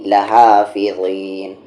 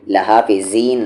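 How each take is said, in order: First: Slow लहाफिज़ीन, ज़ a heavy voiced th; correct heavy zaa. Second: लहाफिज़ीन with a light plain z; wrong z sound. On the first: Teacher correcting the mistake, heavy th-like ज़ in लहाफिज़ीन. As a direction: draw out लहाफिज़ीन with thick tongue-to-teeth ज़. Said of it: "लहाफिज़ीन नहीं". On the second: Teacher showing what not to say, plain z in लहाफिज़ीन. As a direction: say लहाफिज़ीन with buzzing z, no heaviness. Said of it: "नहीं". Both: Shown as a demonstration.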